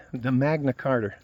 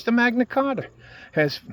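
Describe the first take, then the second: First: Said in the usual way. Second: Magna Carta slipping into a Boston accent, a bit higher; "The Magna Carta" with a Boston twang on the vowels; accidental Boston accent. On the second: Real, not acted. Ranting about free speech, he slips into a Boston accent. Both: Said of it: "I sound like I'm from Boston".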